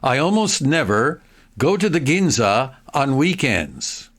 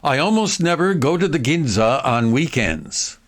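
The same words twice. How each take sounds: First: The sentence is spoken at a slow pace. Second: The sentence is spoken at a fast pace. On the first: "I'll read it slowly first" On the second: "More quickly"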